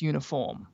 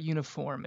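First: "uniform" said the movie coach's way; demonstrating the coach's "uniform"; accented pronunciation. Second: Said in the usual way. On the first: Shown as a demonstration. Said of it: "It's uniform". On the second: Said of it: "It's not uniform".

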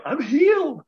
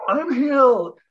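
First: High, elated exclamation; bursting with amazed delight; thrilled realization. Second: High and a bit louder, sure now; triumphant second cry of relief; louder joyful repeat. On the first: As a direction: announce the miracle with joy. Realizes tooth healed at night. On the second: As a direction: say it again, savoring it. Repeats the realization. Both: Retold or imitated.

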